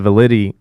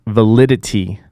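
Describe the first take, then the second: First: Validity swallowed as "alidity", first syllable missing; validity slurred and cut short; garbled word. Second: Validity said clearly with every syllable, va-li-di-ty; validity repeated clean and deliberate; careful correction. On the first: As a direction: mumble validity with the v and middle dropped. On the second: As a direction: correct yourself and spell out validity. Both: Real, not acted.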